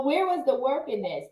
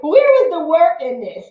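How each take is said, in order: First: Said in the usual way. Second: Higher, louder, incredulous question; mock disbelief. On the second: Imagining attendees complaining about the easy workout, mock incredulous. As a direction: play the stunned workout attendee.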